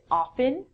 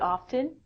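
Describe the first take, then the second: First: The T sound is silent. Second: The T sound is clearly pronounced. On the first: "But most people don't. in North America, people would say often" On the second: "I actually pronounce the T sound in it"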